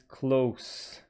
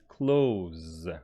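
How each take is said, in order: First: It is pronounced like the adjective meaning near. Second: It is pronounced like the verb meaning shut. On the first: It means near, the opposite of far. "if it is an adjective, opposite of far" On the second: It means to shut, the opposite of open. "if it is a verb, it is close"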